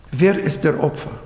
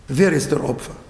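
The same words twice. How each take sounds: The two takes are said the same way.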